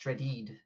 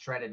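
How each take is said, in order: First: The name is said in a French-sounding way. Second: The name is said in a plain English way. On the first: The speaker calls it right. "It's pronounced ... I'm French now?" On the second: The speaker calls it wrong. "It's not pronounced"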